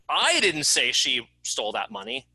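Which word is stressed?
I. The word "I" is stressed. Someone else said it. "It wasn't me that said it, it was someone else"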